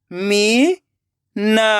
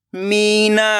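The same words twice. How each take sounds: First: Meena split into मी, long pause, ना; rising मी, then ना alone; syllable by syllable. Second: Meena joined as one word with long vowels; blended word. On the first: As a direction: sound out Meena very slowly in two parts. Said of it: "एक एक अक्षर का उच्चारण करना है". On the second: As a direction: read Meena whole, stretching the मी. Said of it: "खींच के पढ़ना है". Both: Shown as a demonstration.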